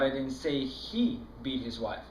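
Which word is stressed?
he. The word 'he' carries the main stress. Someone else did the beating. "No, I was that other guy that was beating his wife"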